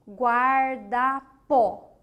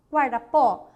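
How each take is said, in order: First: "guarda-pó" very slowly, guar... da... pó; syllable by syllable. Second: Said in the usual way. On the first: Shown as a demonstration. Teacher giving an example of oxítona, "guarda-pó" slowly split. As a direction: stretch "guarda-pó" into separate, louder syllables.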